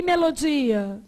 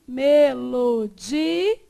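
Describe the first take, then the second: First: Said in the usual way. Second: MELODIA stretched slowly as me-lo-di-a; syllable by syllable. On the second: Shown as a demonstration. Teacher showing the separated ending, slow me-lo-di-a. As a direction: hold each syllable of "Melodia", final A apart. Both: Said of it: "o final fica separado".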